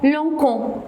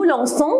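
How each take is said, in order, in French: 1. Le c se prononce comme un son k. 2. Le c se prononce comme un son s. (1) "si je ne mets pas le C D, on va la prononcer comment? ... c'est faux" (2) "on dit nous lançons avec C C D"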